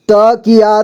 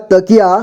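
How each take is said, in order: First: तकिया as त-कि-या; syllable by syllable. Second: Said in the usual way. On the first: Shown as a demonstration. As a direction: sound out तकिया in three parts. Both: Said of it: "एक ही बार में पढ़ेंगे".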